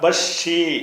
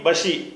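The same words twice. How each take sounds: First: The sh sound is held and doubled. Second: The sh sound is short and single. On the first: "ஷத்து இருந்தால் பஷி" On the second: "அந்த ஷத்து இல்லாட்டி பஷி"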